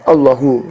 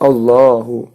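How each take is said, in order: First: The middle 'a' vowel is cut short. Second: The middle 'a' vowel is held two beats. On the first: The speaker calls it wrong. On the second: The speaker calls it right. "dibaca dua harokat"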